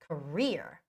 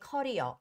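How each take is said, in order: First: The second syllable is stressed. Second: The second syllable is not stressed. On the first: The speaker calls it right. "There's a stress on the second syllable" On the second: The speaker calls it wrong. "we just say career"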